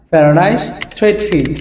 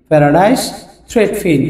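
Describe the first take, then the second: First: Said in the usual way. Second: paradise and থ্রেডফিন split with a clear pause; slow repeat. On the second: Shown as a demonstration. Teacher repeating the English name slowly, word by word. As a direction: spell it out by ear for learners.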